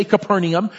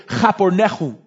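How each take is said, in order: First: Said in the usual way. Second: Chapornechum with throaty ch sounds; Hebrew pronunciation. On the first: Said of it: "You would never say Capernaum". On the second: Shown as a demonstration. Pastor contrasting the Hebrew name, Chapornechum with guttural ch. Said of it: "That's how you would say it in Hebrew".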